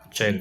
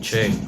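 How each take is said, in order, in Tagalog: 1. Parang malabo ang boses dahil sa pitch effect. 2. Napakalalim ng boses, parang nasa ilalim ng lupa. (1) "para na po siyang ah, blurred na yung tunog" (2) "parang nasa ilalim na ng lupa"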